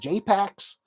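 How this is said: It is said in an American accent.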